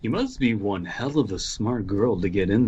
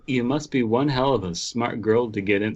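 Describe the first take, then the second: First: It is said in a put-on devil voice. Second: It is said in a put-on Valley Girl voice. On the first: The speaker calls it right. "when it's the devil" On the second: The speaker calls it wrong. "why am I doing the Valley Girl"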